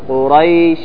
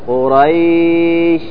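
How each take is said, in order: First: The 'ay' glide is kept very short. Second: The 'ay' glide is drawn out long. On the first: The speaker calls it right. "وإنما أقول قريش إيلافهم" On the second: The speaker calls it wrong. "ما أقول قريش خطأ"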